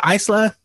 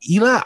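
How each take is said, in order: First: Isla said as EYE-sla, higher, questioning; unsure pronunciation. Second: Isla said as EE-la, higher, questioning; unsure pronunciation. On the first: Host correcting himself on a name, Isla tried as EYE-sla. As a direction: try Isla with an eye sound and the s voiced. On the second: Host unsure of a wrestler's name, Isla tried as EE-la. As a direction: try Isla with a long ee to start. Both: Real, not acted. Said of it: "was it, uh".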